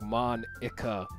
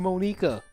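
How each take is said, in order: First: The syllables are spaced apart. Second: The syllables are run together. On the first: "they spaced it out like Monica" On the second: "it has to be Monica"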